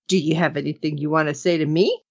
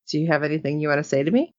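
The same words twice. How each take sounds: First: It is said in a pouty, childish voice. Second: It is said in a plain, normal voice.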